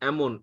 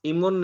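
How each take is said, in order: First: The word begins with an 'e' vowel. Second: The word begins with an 'i' vowel. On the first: The speaker calls it right. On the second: The speaker calls it wrong. "इमोन नहीं"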